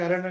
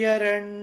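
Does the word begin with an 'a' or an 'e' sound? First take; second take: a; e. First: The word begins with an 'a' sound. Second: The word begins with an 'e' sound. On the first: The word is read on its own. "విడిగా చదివితే అరణ్ అని చెప్పాలి" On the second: The word is joined to the previous word. "కలిపి చదివితే ఎరణ్ అని చెప్పాలి"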